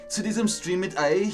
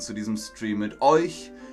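First: It is spoken with an Austrian accent. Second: It is spoken with a standard German accent.

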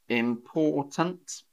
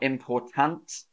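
First: The last syllable is reduced to a schwa. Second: The last syllable has a full, unreduced vowel. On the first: The speaker calls it right. "Punt, the schwa" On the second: The speaker calls it wrong. "Not important"

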